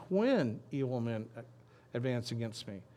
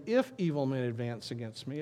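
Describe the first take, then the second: First: "When" stressed as the correcting word; drawn emphasis on "When", then ease off. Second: "If" stressed as the word being ruled out. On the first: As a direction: lean firmly on "When". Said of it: "It says". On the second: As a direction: lean on "If" at the start. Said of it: "doesn't say". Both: Shown as a demonstration.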